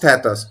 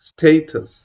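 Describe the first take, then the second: First: The first vowel sounds like 'cat'. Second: The first vowel sounds like 'day'. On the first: The speaker calls it wrong. "This is not স্ট্যাটাস" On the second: The speaker calls it right. "This is স্টেটাস"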